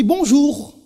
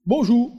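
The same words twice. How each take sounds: First: "Bonjour" with the final R sounded clearly, a bit higher and louder; proudly sounding the French R at the end of "Bonjour". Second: "Bonjour" said "bonjou", the final R dropped as in Creole; "Bonjour" ending in an open "ou", no R at all; Creole bonjour without R. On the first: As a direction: land hard on the R of "Bonjour", the Paris way. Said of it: "il faut prononcer les R". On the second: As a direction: drop the R of "Bonjour", Antillean style. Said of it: "Tu ne prononçais pas les R". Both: Shown as a demonstration.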